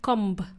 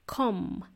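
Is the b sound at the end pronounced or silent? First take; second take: pronounced; silent. First: The final b sound is pronounced. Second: The final b sound is silent. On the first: The speaker calls it wrong. "Not comb" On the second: The speaker calls it right. "the letter B is silent"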